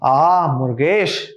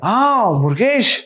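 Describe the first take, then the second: First: The voice sounds dissatisfied and disappointed. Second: The voice sounds amazed and delighted. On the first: The listener did poorly. "I'm not satisfied" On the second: The listener did surprisingly well. "I'm amazed"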